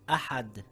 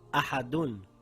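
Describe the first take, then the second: First: The word ends on a bare d sound. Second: The word ends with an -un sound. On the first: The reading stops on this word. "Now we read it as ahad and not ahadun" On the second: The reading continues without stopping. "It reads ahadun"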